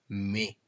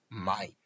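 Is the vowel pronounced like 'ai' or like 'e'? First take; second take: e; ai. First: The vowel is a single 'e' sound. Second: The vowel is a diphthong like 'ai'. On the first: The speaker calls it right. "se pronuncia me" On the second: The speaker calls it wrong. "No se pronuncia jamás mai"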